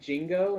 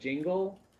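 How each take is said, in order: First: The word ends with an O sound. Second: The word ends with an L sound. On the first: The speaker calls it wrong. "me saying jingo instead of jingle" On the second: The speaker calls it right. "instead of jingle"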